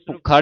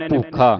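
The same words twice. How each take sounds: First: ਭੁੱਖਾ with short u, doubled kh; wrong short vowel. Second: ਭੂਖਾ with long oo, as poo-kha. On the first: Teacher shows what to avoid, ਭੁੱਖਾ with short u. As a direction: clip the u in ਭੁੱਖਾ to puk-kha. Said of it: "ਭੁੱਖਾ ਨਹੀਂ ਉਚਾਰਨ ਕਰਨਾ". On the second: Teacher models correct reading, ਭੂਖਾ with long oo. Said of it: "ਦਲੈਂਕੜ ਲਾ ਕੇ ਉਚਾਰਨ". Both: Shown as a demonstration.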